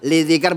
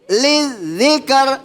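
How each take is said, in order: First: The z sound is said plainly, without extra weight. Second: The z sound is drawn out and pressed harder. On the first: The speaker calls it wrong. "Yang tadinya biasa saja bacanya" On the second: The speaker calls it right. "tarik liz lizikr ... Nah begitu. Itu namanya nabroh"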